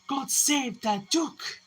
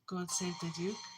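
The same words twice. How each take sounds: First: It is said very loudly and heartily. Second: It is said softly and weakly.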